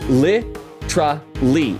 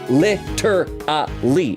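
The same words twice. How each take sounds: First: The word is slurred, with syllables run together. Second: The word is said carefully, every syllable clear. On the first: "if you want to slur it" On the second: "if you want to say it properly"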